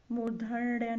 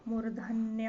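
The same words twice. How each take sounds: First: मूर्धन्य with retroflex ण before ya; wrong pronunciation. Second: मूर्धन्य with dental n before ya; correct pronunciation. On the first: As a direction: curl the tongue near the end of मूर्धन्य. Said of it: "नहीं होता है". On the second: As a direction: keep the न of मूर्धन्य plain. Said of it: "होता है". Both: Shown as a demonstration.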